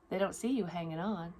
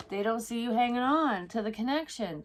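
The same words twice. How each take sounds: First: Said in the usual way. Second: Higher and louder, leaning on "on"; emphatic. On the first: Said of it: "repeated line, then stressed". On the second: Shown as a demonstration. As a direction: drive home "hanging on". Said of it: "repeated line, raised and stressed".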